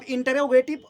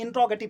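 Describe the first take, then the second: First: "इंटरोगेटिव" said slowly and loudly, stretched into in-te-ro-ge-tiv; drawn-out mispronunciation. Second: "इंट्रोगेटिव" run together as in-tro-ge-tiv; correct pronunciation. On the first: Teacher showing learners how not to say "इंटरोगेटिव", slow overdone pronunciation. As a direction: stretch out the wrong way of saying "इंटरोगेटिव". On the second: Teacher modelling the term for learners, "इंट्रोगेटिव" in compact correct pronunciation. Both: Shown as a demonstration. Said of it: "इंट्रोगेटिव नहीं बोलेंगे".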